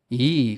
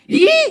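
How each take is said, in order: First: The pitch stays level with no change. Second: The pitch keeps rising throughout. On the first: It expresses agreement. "인토네이션이 없이 높낮이가 없이" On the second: It expresses anger. "계속 올라가는"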